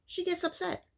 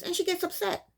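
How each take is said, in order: First: High, softer disbelieving repeat; indignant echo. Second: Indignant. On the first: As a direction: say it again in disbelief, quieter. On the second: Stressing her reaction. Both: Real, not acted.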